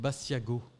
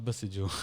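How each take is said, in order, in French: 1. Le nom se termine par un son « go » dur. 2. Le nom se termine par un son « jo » doux. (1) "Et il s'appelle Bassiago" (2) "Pas Basseggio"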